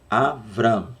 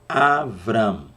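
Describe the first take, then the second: No difference in how they are said.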